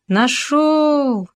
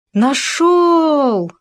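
First: High triumphant shout; joyful shout. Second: High, loud cry of discovery; sudden shout. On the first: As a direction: call it out in delight. Second joyful discovery cry. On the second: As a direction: burst out with a joyful yell. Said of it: "внезапно закричал Хома". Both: Acted.

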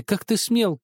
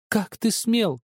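First: "ты" hit high and loud with a falling end; indignant. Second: "ты" stressed again, high and angry, falling; indignant repeat. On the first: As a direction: stress on "ты", outraged. Sister scolding, repeated. (упор на «ты», возмущённо) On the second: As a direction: repeat the outrage on "ты". Repeated scolding. (повтор с упором на «ты», гневно) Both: Acted.

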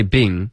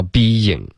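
First: BEING squashed into a single "bing"; one-syllable mistake. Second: BEING drawn out as bee-ying; correct two syllables. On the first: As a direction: say "being" wrongly, without the y glide. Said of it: "他们就会想到那个". (being 错读成一个音节 bing) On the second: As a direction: say "being" with a clear y glide between syllables. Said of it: "而不会想到being". (being 正确读成两个音节) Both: Shown as a demonstration.

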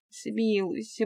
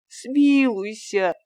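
First: Begging for mercy. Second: Drawn-out, high, louder смилуйся; slow desperate plea. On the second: Fyodor begs the master one last time, slow and desperate. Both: A narrator's reading. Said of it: "продолжал просить Фёдор".

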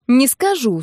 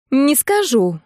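First: Mocking copy of the stubborn "не скажу", falling on скажу; parodying friend. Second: Stubborn higher "не скажу", falling on скажу; stubborn refusal. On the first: Narrator mimicking her friend's stubborn refusal back at her. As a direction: tease her with her own words. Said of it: "спародировала я её". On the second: Acted. Friend refusing to name her groom, stubborn and higher. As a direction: dig in, refuse flatly. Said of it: "заупрямилась Нина".

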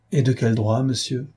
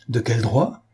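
First: Said in the usual way. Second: Mildly indignant echo of the question; impetuous outcry. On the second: A narrator's reading. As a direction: throw it back impulsively. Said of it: "avec une impétuosité qui l'entraîna trop loin".

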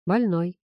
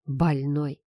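First: Said in the usual way. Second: Low grumble of «Больной», word dropped low and sour; grumbled insult. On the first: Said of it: "подтвердил он". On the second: A narrator's reading. Son grumbling «Больной» about his father. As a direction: mutter «Больной» under your breath in disgust. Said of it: "проворчал я".

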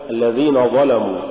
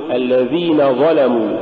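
First: Quicker الذين ظلموا with thickened, dark letters; wrong heavy pronunciation. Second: الذين ظلموا with thin dhal and lam; correct light pronunciation. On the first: Teacher shows the error to avoid, darkened الذين ظلموا. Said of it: "ولا تقل". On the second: Teacher models the correct phrase, light letters in الذين ظلموا. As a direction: keep الذين light before heavy ظلموا. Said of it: "قل". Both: Shown as a demonstration.

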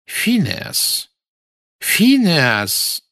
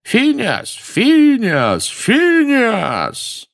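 First: Calling out. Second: High shouted name, repeated; shouting. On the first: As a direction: call out to wake him. Calling sleeping portrait. (громкий оклик по имени) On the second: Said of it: "стали выкрикивать его имя". (выкрикивание имени хором) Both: A narrator's reading.

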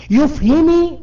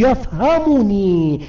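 First: يفهمي said without the nun, pitched high and louder; wrong form shown. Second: يفهمني said slowly with the nun clearly pronounced; correct form slowly. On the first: Teacher showing students the error, high and emphatic. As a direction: toss out the wrong يفهمي like a mistake. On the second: Teacher to class, giving the correct form slowly. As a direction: lay out يفهمني deliberately, nun and all. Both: Shown as a demonstration. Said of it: "لا نقول".

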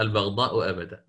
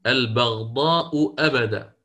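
First: البغضاء أبدا with the second hamza eased as the teacher's fix; corrected recitation. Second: البغضاء أبدا recited slowly, hamza drawn out; recited reading. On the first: Shown as a demonstration. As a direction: say البغضاء أبدا the right way, showing it. (تصحيح الشيخ البغضاء أبدا بتسهيل الهمزة) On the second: Real, not acted. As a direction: read البغضاء أبدا slow with the student's hamza. (قراءة الطالب البغضاء أبدا ببطء) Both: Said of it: "لا، البغضاء أبدا".

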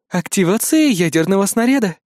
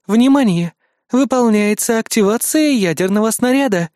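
First: Cool automated warning, a bit higher; a hint of a computer alert; cool alarm voice. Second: Louder, higher system alert; raised automated alarm; urgent alarm. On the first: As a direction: system warning, held level. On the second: Acted. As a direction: announce it as a rising emergency warning. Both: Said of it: "предупредил прохладный женский голос".

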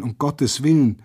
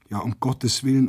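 First: Higher and louder frightened plea, falling on willen; the plea breaks upward into a cry; girl crying out. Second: A hint of a frightened girl crying out, holding back; lightly voiced girl's cry. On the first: Girl wringing her hands as the old woman is shot, pleading cry. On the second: Girl wringing her hands as a soldier shoots, mild cry. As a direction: begin the plea with only a touch of alarm. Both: A narrator's reading. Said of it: "schrie ein Mädchen händeringend".

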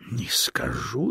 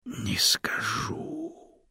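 First: Said in the usual way. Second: Teasing whisper, higher; whispered refusal. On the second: A narrator's reading. Snake slyly refusing the stone, whispered tease. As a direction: hush it slyly.

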